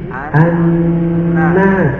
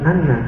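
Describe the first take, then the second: First: The sound is held for a longer time. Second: The sound is cut short, not held. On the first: The speaker calls it right. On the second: The speaker calls it wrong. "Ini bukan"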